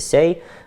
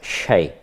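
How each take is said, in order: First: The word begins with an s sound. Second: The word begins with a very soft, brief sh. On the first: This is the southern or eastern dialect form. "на говорах южного или восточного диалекта «сяй»" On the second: This is the Gaina dialect form. "очень мягкая, такая очень беглая «ш»"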